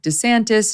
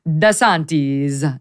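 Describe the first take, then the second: First: The name is pronounced the American way. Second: The name is pronounced the Italian way. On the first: "a little bit more Americanized" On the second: "the proper Italian pronunciation would be"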